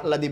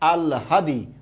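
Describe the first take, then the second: First: The h sound comes before the l. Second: The l sound comes before the h. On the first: The speaker calls it wrong. "এটা কত যে ভুল উচ্চারণ করছেন, আহলাদি আহলাদি বলে বলে" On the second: The speaker calls it right. "লটা পরে আসে না, লটা আগে চলে আসবে"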